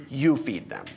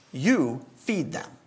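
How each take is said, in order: First: Said in the usual way. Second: "You" leaned on with a rising tune, slow delivery; slowly, pointing the word "You" at the group; stress on You. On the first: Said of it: "it's a plural collective". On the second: Shown as a demonstration. Preacher stresses Jesus' plural "You" to disciples, slow emphasis. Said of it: "Jesus has given them a directive".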